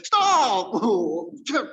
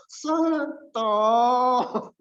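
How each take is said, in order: First: Loud, high, abrupt "Stop"; brisk Batak command. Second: High, long-drawn "stop"; slow Solo attendant. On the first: Preacher as Batak parking attendant, abrupt shout. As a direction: shout it short and sharp. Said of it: "harusnya orang apa? ... orang Batak". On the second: Preacher as Solo parking attendant, drawn-out high call. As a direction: stretch the warning until too late. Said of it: "Tapi kalau stop". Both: Acted.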